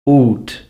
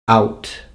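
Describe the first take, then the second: First: The vowel is pronounced as in the 1400s. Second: The vowel is pronounced as in the 1900s. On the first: "the way they would be pronounced in the fourteen hundreds" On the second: "nineteen hundreds"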